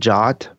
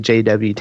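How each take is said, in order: First: It is said as a single one-syllable word. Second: It is spelled out as three separate letters. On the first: "some people pronounce it JOT" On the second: "I prefer to just say JWT"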